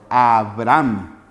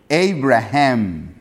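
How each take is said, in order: First: The h in the name is silent. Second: The h in the name is clearly sounded. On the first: This is the Spanish reading of the name. "en el español es Abraham" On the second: This is the English reading of the name. "en inglés es Abraham"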